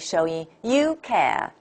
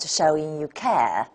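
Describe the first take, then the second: First: The word 'you' is stressed. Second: The word 'you' is not stressed. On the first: The speaker calls it wrong. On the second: The speaker calls it right.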